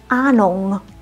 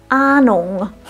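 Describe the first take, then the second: No difference in how they are said.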